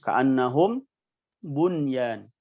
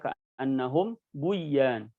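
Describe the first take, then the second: First: The n sound is clearly kept before y. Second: The n sound is dropped and merged into y. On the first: The speaker calls it right. "tapi dibaca bunyan" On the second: The speaker calls it wrong. "Tidak dibaca"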